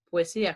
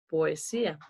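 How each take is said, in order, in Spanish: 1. Las vocales del medio se funden, la primera se cierra hacia la u. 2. Las vocales del medio se mantienen en sílabas separadas. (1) "dije poesía, como una especie de U" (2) "Yo no dije poesía"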